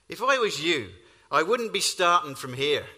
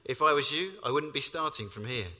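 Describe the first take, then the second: First: It is spoken in an imitated Irish accent. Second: It is spoken in the speaker's ordinary accent. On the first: "in his best Irish accent, replies, which is much better than mine" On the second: "For those of you who need translation"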